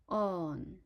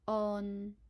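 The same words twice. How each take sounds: First: It is said in Cantonese tone four. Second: It is said in Cantonese tone three. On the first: "fourth tone on" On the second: "third tone on"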